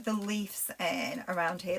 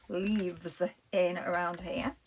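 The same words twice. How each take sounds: First: Broad Lancashire, leaves said as "lifs"; slipping into Lancashire on "leaves" said as lifs; Lancashire accent. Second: Said in the usual way. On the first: Real, not acted. Crafter on a live slips into her Lancashire accent. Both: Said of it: "That's my Lancashire accent coming out".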